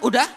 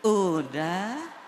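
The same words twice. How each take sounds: First: It is said plainly and firmly, without lilting. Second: It is said softly, drawn out and lilting.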